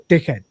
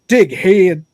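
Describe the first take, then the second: First: Short British-accented "Dickhead". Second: Louder "Dickhead" in another accent, second vowel stretched to "hee-ud"; different accent. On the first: Streamer showing how he hears the insult, British accent. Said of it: "I hear it in a British accent". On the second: Streamer joking how other accents say it, exaggerated different accent. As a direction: put on a non-British accent for "Dickhead", drawn into "heed". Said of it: "different accents gonna be like". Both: Shown as a demonstration.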